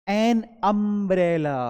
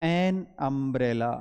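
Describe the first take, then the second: First: "an" hit loud, very slow "an umbrella"; teacher stressing "an" before "umbrella". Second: "an umbrella" repeated very slowly with "an" marked; teacher slowly repeating "an umbrella". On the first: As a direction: punch "an" and draw "an umbrella" out slowly. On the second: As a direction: spell out "an umbrella" slowly for the class. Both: Shown as a demonstration. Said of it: "ए से शुरू है".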